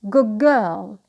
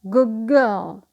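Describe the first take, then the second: First: The word good ends with a g sound. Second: The word good ends with a g sound.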